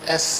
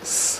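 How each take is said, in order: First: It is said with a vowel before the hiss. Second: It is said as a bare hissing sound. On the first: The speaker calls it wrong. "I shouldn't say S. S has A at the beginning, which is a vowel" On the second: The speaker calls it right. "I should simply say S, like a snake"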